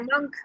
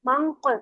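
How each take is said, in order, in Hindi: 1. नासिका और k आगे बनते हैं, हल्के से। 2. नासिका और k गहराई से, दूर पीछे बनते हैं। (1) "इस मंकी वाले पे चले जाए" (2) "पीछे चले जाए, ... कॉफ पे चले गए"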